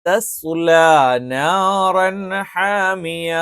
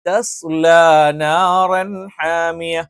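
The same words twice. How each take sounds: No difference in how they are said.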